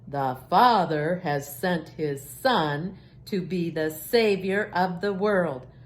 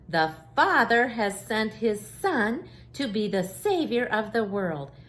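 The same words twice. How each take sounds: First: It is said in a very deep voice. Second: It is said in an ordinary speaking voice.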